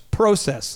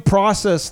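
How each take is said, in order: First: It is said in a Canadian accent. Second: It is said in an American accent.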